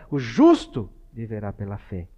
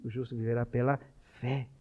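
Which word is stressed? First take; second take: justo; viverá. First: The stress is on the word justo. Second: The stress is on the word viverá.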